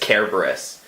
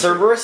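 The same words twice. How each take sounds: First: The word begins with a hard K sound. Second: The word begins with a soft S sound. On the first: This follows the original Latin. The speaker calls it right. "The correct pronunciation is Cerberus. Because Latin always has hard C's" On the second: This is how most English speakers say it. The speaker calls it wrong. "the pronunciation that a lot of people use, like the common English pronunciation"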